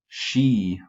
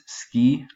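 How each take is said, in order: First: The word starts with an sh sound. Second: The word starts with an s-k sound. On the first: The speaker calls it right. "kind of the S C H sound" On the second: The speaker calls it wrong. "not as ski, like in English"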